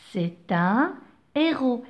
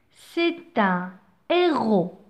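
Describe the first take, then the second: First: "un héros" with no N linked before héros; no liaison demo. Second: "un héros" slow, no N linked before héros, ɛ eʁo; no liaison demo. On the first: Teacher repeating héros for careful listening. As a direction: keep un and héros apart. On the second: Teacher showing the aspirate H in héros. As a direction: leave a clean break before héros. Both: Shown as a demonstration. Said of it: "Écoutez bien".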